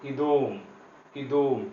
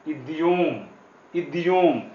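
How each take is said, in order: First: इदोम with a soft d and no yo glide; the right way, इदोम with a soft d; correct reading. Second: इद्योम with the yo glide sounded; the wrong way, इद्योम with a clear yo; wrong reading. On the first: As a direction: say इदोम as i-dom, softened. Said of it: "इसको पढ़ेंगे". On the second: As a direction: say इद्योम as id-yom. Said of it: "लेकिन हम इद्योम नहीं पढ़ेंगे". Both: Shown as a demonstration.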